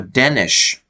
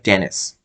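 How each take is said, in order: First: The name ends with an sh sound. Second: The name ends with an s sound. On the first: "with an H sound at the end" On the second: "it looks like Dennis"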